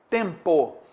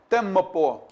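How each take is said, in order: First: The m only nasalizes the vowel before it. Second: The m is followed by an extra vowel. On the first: The speaker calls it right. "Todo mundo fala o quê?" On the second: The speaker calls it wrong. "Ninguém fala isso"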